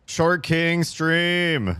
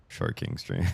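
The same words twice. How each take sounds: First: High, slow grand announcement; mock proclamation. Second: Low, dry repeat with a small rise; deadpan repeat. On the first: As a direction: proclaim it like a show title. Jokey title for sinking stream. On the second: Pretend. Repeats joke title.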